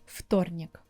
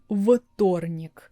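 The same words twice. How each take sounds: First: The first consonant is a voiceless f. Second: The first consonant is a voiced v. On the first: The speaker calls it right. "v becomes f, voiceless, and it sounds like вторник" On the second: The speaker calls it wrong. "I'm not saying вторник because v is voiced"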